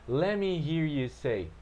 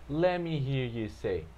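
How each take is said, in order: Both takes have the same delivery.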